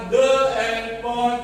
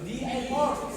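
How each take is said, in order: First: The word 'the' is said as 'thuh'. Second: The word 'the' is said as 'thee'. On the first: The speaker calls it wrong. "bukan the airport" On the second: The speaker calls it right. "Dibaca di bukan the"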